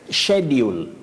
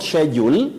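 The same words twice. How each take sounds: First: The word begins with a 'sh' sound. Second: The word begins without a 'sh' sound. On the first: The speaker calls it right. "S, C, and H takes the sounding sh" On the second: The speaker calls it wrong. "not schedule"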